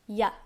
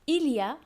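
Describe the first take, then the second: First: It is squeezed into one short syllable. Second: It is said fully, in three syllables.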